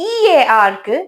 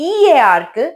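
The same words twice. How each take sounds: No difference in how they are said.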